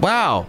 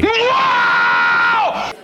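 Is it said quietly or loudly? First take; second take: quietly; loudly. First: It is said quietly and flatly. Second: It is said loudly and obnoxiously.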